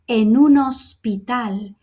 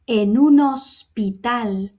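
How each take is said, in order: No difference in how they are said.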